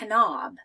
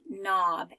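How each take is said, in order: First: The K sound is pronounced at the start. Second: The K sound is silent at the start. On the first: The speaker calls it wrong. "I wouldn't say knob" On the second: The speaker calls it right. "I would just say knob, and the K is quiet"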